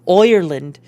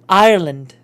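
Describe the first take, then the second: First: The first vowel sounds like an O. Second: The first vowel sounds like an ah.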